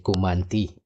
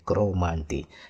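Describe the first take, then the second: First: The word starts with ku, with no r sound. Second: The word starts with cro, with an r sound. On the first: This is how the bush Negro groups say it. "we say Kumanti" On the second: This is how people near the city say it. "those who live close to the city will say Cromanti"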